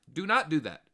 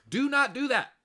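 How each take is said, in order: First: "not" hit hard and loud; stress on not. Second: High, loud shout of warning. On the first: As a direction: lean on the word "not". Warning repeated, firmer. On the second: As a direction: yell it to stop them. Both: Real, not acted.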